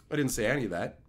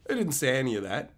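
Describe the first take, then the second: First: Said in the usual way. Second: Quicker, with I pushed up at the start; stress on I. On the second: Shown as a demonstration. Admitting to Ape the rant never happened, stress on I. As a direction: hit I, then rush the rest.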